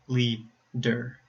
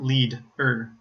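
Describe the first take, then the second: First: "leader" slowly split as lea, der; syllable break before D. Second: "lead-er" split after the D; wrong syllable break. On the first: Teacher corrects the split, slow "leader" as lea, der. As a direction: start the second syllable of "leader" with the D. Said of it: "at the beginning of the second syllable". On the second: Teacher shows the wrong split, "lead-er" broken after D. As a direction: close the first syllable with D, then a separate "er" in "lead-er". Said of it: "not the end of the first syllable". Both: Shown as a demonstration.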